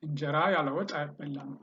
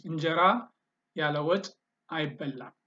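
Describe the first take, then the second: First: Fast, all in one breath group; fluent run-through. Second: Broken into parts with clear pauses between; word by word. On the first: Teacher repeating the Amharic sentence for learners, quick and fluent. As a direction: run the words together quickly without pauses. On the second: Teacher modelling an Amharic sentence for learners, word by word. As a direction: model it in separate chunks for learners. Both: Shown as a demonstration.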